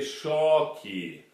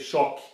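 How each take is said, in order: First: The word is said very slowly. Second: The word is said at normal speed.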